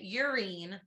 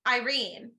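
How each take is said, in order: First: The name begins with a 'y' sound. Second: The name begins with an 'eye' sound. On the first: The speaker calls it wrong. "you kept in our Snapchat videos pronouncing it Yrene" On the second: The speaker calls it right. "the only reason I knew it was Irene"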